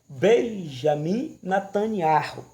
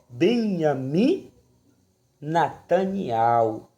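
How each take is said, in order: First: The first name begins with a J sound. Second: The first name begins without a J sound. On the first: The speaker calls it wrong. "pronunciado aqui no Brasil" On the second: The speaker calls it right. "lá não tem o J"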